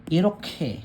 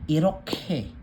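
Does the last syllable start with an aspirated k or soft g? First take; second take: aspirated k; aspirated k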